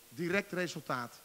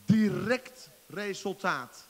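First: Said in the usual way. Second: "Direct resultaat" slow, loud, leaning hard on "Direct"; emphatic. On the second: Shown as a demonstration. Preacher stressing the result to the congregation, slow and emphatic. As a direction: stretch "Direct resultaat" out and hit "Direct".

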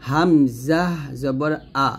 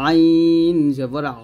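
First: "আ" light, from the start of the throat; hamza without pressure. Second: "আইন" held long and loud, "আ" squeezed mid-throat; pressed ain. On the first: Teacher contrasts hamza with ain, unpressed "আ". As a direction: release "আ" cleanly, no squeeze. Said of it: "গলার শুরু থেকে নিয়ে আসবো". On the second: Teacher models ain against hamza, squeezed "আ". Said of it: "আইন চাপ দিয়ে বলতে হবে". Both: Shown as a demonstration.

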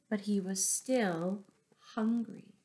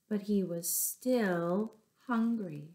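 Both takes have the same delivery.

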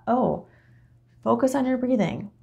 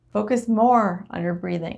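First: Airy send-up of a guided meditation; mock meditation guide. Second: Lightly mocking guide, leaning on "more"; "more" stretched and emphasized, parodying a teacher; stress on MORE. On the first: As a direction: lightly parody a meditation teacher, pitched up. Mocking a passive meditation instruction. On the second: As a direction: draw out "more" in a mock meditation instruction. Mock instruction repeated with more insistence.

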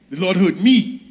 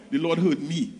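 First: Said in the usual way. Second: Softer, hushed, almost to himself; soft awed statement. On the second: Acted. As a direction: let it land quietly, in awe. Repeated line, first softly.

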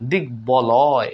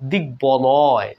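First: Said in the usual way. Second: দিগ্বলয় said very slowly, the ব clearly sounded as b. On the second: Shown as a demonstration. Teacher slowly shows students the b in দিগ্বলয়. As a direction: spell out দিগ্বলয় slowly as দিগ-বলয়. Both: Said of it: "এখানেও দেখুন ব ফলা উচ্চারিত হলো".

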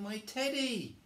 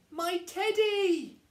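First: High cry at normal volume; cried out. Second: Drawn-out, very high, loud wail; loud cry. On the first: Eddie cries out for his teddy, high. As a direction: exclaim it high, without shouting. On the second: Eddie spots his own teddy, crying out. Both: Acted. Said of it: "cried Eddie".

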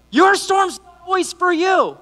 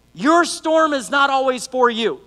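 First: High, drawn-out shout from the pulpit; full-voiced, raised-pitch proclamation; preaching shout. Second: "Your storm is not always for you" said slowly and firmly; measured, weighty "not always for you"; deliberate key point. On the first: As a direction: shout it slowly to rouse the congregation. Key line repeated to rouse congregation. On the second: Key line, first take. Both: Real, not acted.

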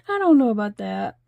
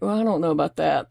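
First: Said in the usual way. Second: Quick, lower, laughing brush-off; retelling her own laughing reply; laughing doubt. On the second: Retold or imitated. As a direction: shrug it off through a laugh. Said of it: "So I was like".

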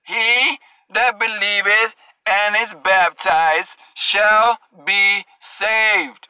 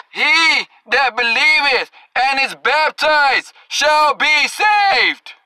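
First: Lower, very slow, every word weighed; dragging out shall be saved, lower and deliberate; slow emphatic reading. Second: Said in the usual way. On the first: Shown as a demonstration. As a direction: spell the verse out slowly for the slow learners.

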